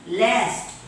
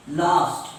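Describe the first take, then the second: First: LAST with front "a" as in cat; cat vowel in LAST; American last. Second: LAST with long open "ah"; British last. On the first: Teacher modelling American English, LAST with cat vowel. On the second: Teacher isolating the British word, LAST as "laast". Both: Shown as a demonstration. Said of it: "In American English".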